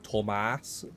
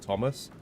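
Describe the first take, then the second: First: The name is said with heavy, forceful emphasis. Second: The name is said plainly, without extra emphasis. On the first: The name is spelled with T O. "he put a lot more emphasis onto it" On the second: The name is spelled with T H. "anyone with T H he he would actually call like Thomas"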